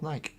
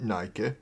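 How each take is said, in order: First: The final e is silent. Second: The final e is pronounced as a vowel. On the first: "but it's a silent letter. It's called Nike" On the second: "I call it Nike"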